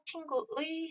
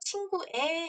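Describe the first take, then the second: First: The final vowel is the diphthong ui. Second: The final vowel is a plain e. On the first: "친구의 해도 되고요" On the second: "조사 앞에는요, 의에 둘 다 가능합니다"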